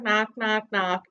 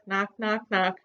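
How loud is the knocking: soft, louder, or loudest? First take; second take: loudest; louder. First: The knocks are said even louder. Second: The knocks are said a little louder.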